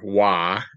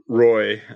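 First: The name is said with an 'ah' sound. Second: The name is said with an 'oy' sound.

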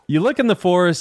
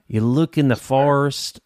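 First: It has a milder, toned-down southern accent. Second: It has a heavy, exaggerated southern accent. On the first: The speaker calls it right. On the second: The speaker calls it wrong.

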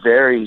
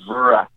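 First: The word ends with an 'ee' sound. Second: The word ends with an 'uh' sound. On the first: "instead of saying very" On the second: "he says vera"

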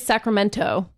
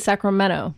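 First: Every syllable is pronounced crisply and precisely. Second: The syllables are run together, Northern California style.

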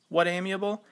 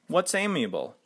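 First: No s sound follows what. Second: An s sound follows what. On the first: The speaker calls it wrong. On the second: The speaker calls it right.

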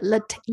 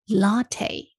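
First: The stress is on the last syllable. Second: The stress is on the first syllable. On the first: The speaker calls it wrong. "所以并不是latte，重音不在t" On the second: The speaker calls it right. "前面latte"

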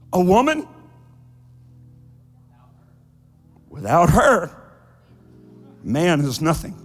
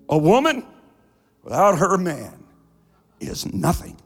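First: The phrase breaks after woman and after her. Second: The phrase breaks after woman and after man. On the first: A man is worthless without a woman. "But a woman would say" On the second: A woman is worthless without a man. "A man would say"

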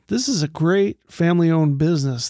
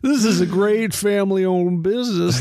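First: It is read in an ordinary, natural voice. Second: It is read in a put-on rural character voice. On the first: The speaker calls it wrong. "You're using the wrong voice" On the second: The speaker calls it right. "let me get on my dip can"

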